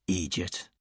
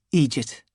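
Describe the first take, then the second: First: Low, soft, dry "idiot"; dry insult. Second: Said in the usual way. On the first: Acted. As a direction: tack on "idiot" deadpan, under the breath. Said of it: "slightly annoyed". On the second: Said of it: "He probably wouldn't have said".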